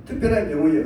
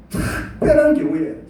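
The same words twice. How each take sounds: First: Said in the usual way. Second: 특별한 stretched slow and pitched high, louder; 특별한 said high, slow and louder to mark the phrase; emphasis on 특별한. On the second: Shown as a demonstration. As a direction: lean hard on 특별한 경우에 slowly. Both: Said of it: "제가 말합니다".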